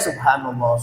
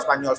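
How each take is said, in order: First: It is said calmly, each syllable clear. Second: It is rushed and clipped, syllables run together. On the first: The speaker calls it right. "Tenang, tenang, santai" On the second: The speaker calls it wrong. "kalau baca Spanyol"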